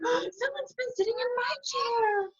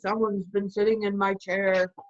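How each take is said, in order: First: It is said in a shocked voice. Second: It is said in an angry voice.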